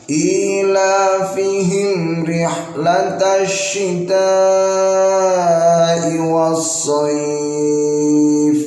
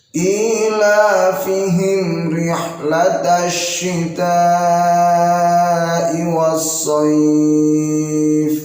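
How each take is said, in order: Both takes have the same delivery.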